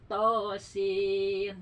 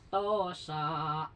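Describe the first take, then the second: First: The word ends in a closed 'sin' syllable. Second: The word ends in an open 'sa' syllable. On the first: The speaker calls it right. "bukan sa tapi sin harusnya tosin" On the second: The speaker calls it wrong. "Dia baca gini"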